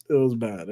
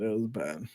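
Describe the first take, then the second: First: Said in the usual way. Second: Softer, trailing echo under the breath; a soft afterthought; quiet repeat. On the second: Real, not acted. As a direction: let it fall away quietly.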